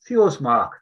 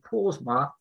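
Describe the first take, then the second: First: The name begins with a th sound. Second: The name begins with a p sound. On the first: The speaker calls it right. "it's pronounced as a TH" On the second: The speaker calls it wrong. "when you see it in the map, it will be"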